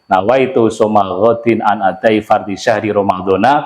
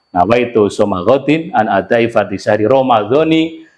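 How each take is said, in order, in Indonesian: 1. Kata terakhir berakhir dengan vokal 'a'. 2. Kata terakhir berakhir dengan vokal 'i'. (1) "tidak dibaca" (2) "tapi dibaca"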